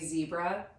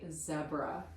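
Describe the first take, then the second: First: It is said in an American accent. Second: It is said in an Australian accent. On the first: "We say zebra" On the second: "They say zebra"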